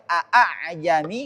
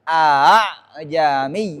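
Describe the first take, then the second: First: The second hamza is pronounced fully as a glottal stop. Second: The second hamza is softened between hamza and alif. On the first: The speaker calls it wrong. "Nggak boleh" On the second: The speaker calls it right. "tashil ... mengucapkan huruf antara fathah dan alif"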